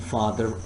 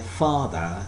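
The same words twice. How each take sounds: First: An R sound links the word's end to the next. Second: The word ends in a vowel with no R. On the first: "this time I'm saying father is away" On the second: "so here I'm not producing R sound"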